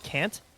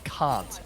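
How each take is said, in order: First: It is said in an American accent. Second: It is said in an Australian accent. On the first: "when you guys say can and can't" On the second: "But we say can't and can"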